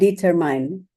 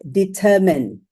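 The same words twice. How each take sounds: First: The last syllable sounds like 'mine'. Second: The last syllable sounds like 'min'. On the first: The speaker calls it wrong. "not determine" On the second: The speaker calls it right. "it's supposed to be said determine"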